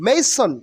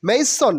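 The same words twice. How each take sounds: Both takes have the same delivery.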